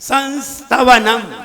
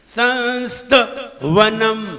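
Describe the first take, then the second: First: The word is said smoothly without a break. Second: The word is split by a break in the middle. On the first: The speaker calls it right. "नहीं नहीं" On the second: The speaker calls it wrong. "देखिए गलती कैसे होती है, ... संस्त वनम टूट गई"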